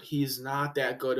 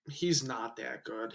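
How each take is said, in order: First: Said in the usual way. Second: Quiet aside. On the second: Real, not acted.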